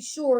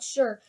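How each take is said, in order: First: The word is said to rhyme with 'more'. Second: The word is said not rhyming with 'more'. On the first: The speaker calls it right. "for more and shorter rhyme, you'll have to say sure" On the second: The speaker calls it wrong. "not sure"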